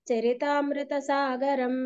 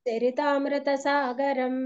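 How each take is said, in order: No difference in how they are said.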